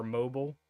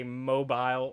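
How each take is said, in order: First: Mobile as "MO-bull", weak last syllable; wrong pronunciation. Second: Mobile as "MO-bile", rhyming with "file"; wrong pronunciation. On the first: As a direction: say mobile to rhyme with "noble". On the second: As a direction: say mobile with a long I at the end. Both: Shown as a demonstration. Listing ways not to say the city, mispronounced. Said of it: "you don't say mobile or mobile".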